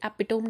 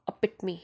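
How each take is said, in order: First: It is said with three syllables. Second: It is said with four syllables. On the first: The speaker calls it wrong. "Epitome नहीं" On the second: The speaker calls it right. "you are supposed to pronounce like uh, epitome"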